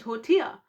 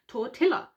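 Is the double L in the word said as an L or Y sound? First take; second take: Y sound; L sound. First: The double L is said as a Y sound. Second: The double L is said as an L sound. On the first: The speaker calls it right. "when they mean tortilla" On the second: The speaker calls it wrong. "people saying tortilla"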